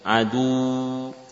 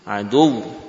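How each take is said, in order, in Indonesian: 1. Bunyi akhir ditarik lebih panjang. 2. Bunyi akhir mendapat dorongan tajam dan nada naik. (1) "dengan memanjangkan, ya, adu, ya, enggak" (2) "Hentakan suara, naiknya intonasi adu"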